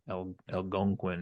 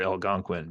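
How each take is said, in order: First: An extra 'el' sound comes before the word. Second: The word is said plainly, with nothing added. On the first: The speaker calls it wrong. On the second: The speaker calls it right.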